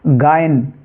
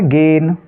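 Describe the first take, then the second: First: The vowel is split into 'a' plus 'i'. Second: The vowel is one plain 'e' sound. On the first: The speaker calls it wrong. "अगर हम हिंदी अंग्रेजी वर्णमाला के हिसाब से इसको अगर पढ़ना चाहेंगे" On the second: The speaker calls it right. "आपको इसको ए से उच्चारित करना है"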